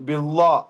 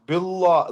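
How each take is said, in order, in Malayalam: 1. L ശബ്ദം കനത്തതും ഇരുണ്ടതുമാണ്. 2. L ശബ്ദം കനത്തതും ഇരുണ്ടതുമാണ്.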